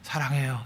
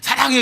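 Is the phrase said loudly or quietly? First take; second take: quietly; loudly. First: It is said in a small, soft voice. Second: It is said in a loud, shouting voice. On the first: It expresses real love. The speaker calls it right. "사랑하면 일단 목소리가 작아져요. 그죠? 사랑해요 이러지" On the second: It is not real love. The speaker calls it wrong. "이게 무슨 사랑이야"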